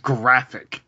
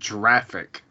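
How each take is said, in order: First: The word begins with a hard g sound. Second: The word begins with a soft j sound. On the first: The speaker calls it right. "It's pronounced graphic" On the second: The speaker calls it wrong. "it's not pronounced graphic"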